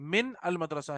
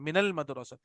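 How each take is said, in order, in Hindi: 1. 'min' और 'al' अलग-अलग शब्दों की तरह बोले जाते हैं। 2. 'min' और 'al' जुड़कर 'minal' बन जाते हैं। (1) "असल में मिन है" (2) "जबर से मिलाना पड़ता है"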